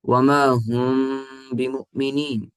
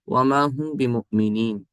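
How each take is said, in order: First: The m is held with a nasal hum. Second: The m is said plainly without nasal hum. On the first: The speaker calls it right. "ये सही है" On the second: The speaker calls it wrong. "ये ठीक नहीं होगा। ... यानी आपने गुन्ना नहीं किया"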